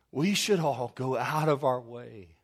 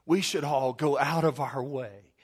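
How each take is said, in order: First: "We should all go out of our way" slowed, each word weighted, "should" hit hardest; preacher drives the point home slowly; slow emphatic repeat. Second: Said in the usual way. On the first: Shown as a demonstration. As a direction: lean on "should" and drag the line out. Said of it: "repeated slower for emphasis". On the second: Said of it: "repeated for emphasis".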